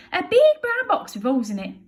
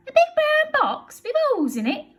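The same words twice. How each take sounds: First: Bill voice. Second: High, loud amazed echo; Betty's amazed question; astonished Betty. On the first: Bill answers. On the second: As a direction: echo it in disbelief. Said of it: "says Burglar Betty". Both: Acted.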